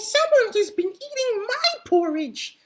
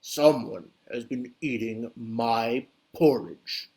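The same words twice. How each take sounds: First: It is said in a high, squeaky voice. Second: It is said in a deep, booming voice. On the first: A small baby bear is speaking. "squeaked Baby Bear in his teeny tiny baby voice" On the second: A big, grown bear is speaking. "said Papa Bear in a great booming voice"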